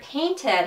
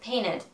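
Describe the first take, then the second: First: The middle T is clearly pronounced. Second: The middle T is dropped.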